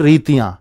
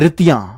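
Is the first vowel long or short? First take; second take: long; short. First: The first vowel is long and drawn out. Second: The first vowel is short and quick. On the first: "और ये रीतियां" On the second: "जो छोटी है ना वो तेजी से बोलेगी"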